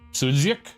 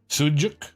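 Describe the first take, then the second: First: The middle consonant is a DZ sound. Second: The middle consonant is a J sound. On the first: "Pronounced like D Z"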